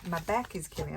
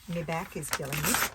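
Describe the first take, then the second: First: It is said in a plain, everyday accent. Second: It is said in a broad Australian accent.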